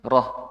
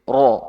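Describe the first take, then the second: First: The r sound is light, with flat lips. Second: The r sound is heavy, with rounded lips. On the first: The speaker calls it wrong. "masih terlalu Jawa" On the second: The speaker calls it right. "ro boleh di sedikit monyongkan"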